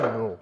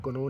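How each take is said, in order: First: "नो" starting straight on the n; silent k. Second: "कनो" with the k sounded before the n; wrong pronunciation. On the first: Teacher showing students the right reading, silent k in "नो". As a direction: say "नो" with no k sound. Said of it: "इसे क्या पढ़ेंगे?". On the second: Teacher showing students the wrong reading, k sounded in "कनो". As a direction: say "कनो", voicing the silent k. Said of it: "आप इसे कनो नहीं पढ़ेंगे". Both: Shown as a demonstration.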